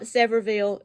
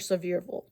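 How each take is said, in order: First: The name sounds like 'Severville'. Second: The name sounds like 'Sevierville'. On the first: The speaker calls it wrong. "It's not Severville" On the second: The speaker calls it right. "It is Sevierville"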